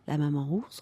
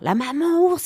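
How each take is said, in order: First: The voice is soft, flat and sleepy. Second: The voice is lively and expressive. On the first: The speaker calls it right. "le ton de la voix est complètement différent" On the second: The speaker calls it wrong. "au lieu de dire"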